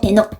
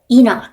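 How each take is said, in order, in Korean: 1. 이 이름은 한국어 "E-nok"처럼 들려요. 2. 이 이름은 영어 "Ee-nak"처럼 들려요.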